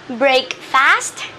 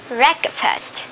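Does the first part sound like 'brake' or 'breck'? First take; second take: brake; breck. First: The first part sounds like brake. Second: The first part sounds like breck. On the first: The speaker calls it wrong. "Is it break fast?" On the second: The speaker calls it right. "No, it is break. Breakfast"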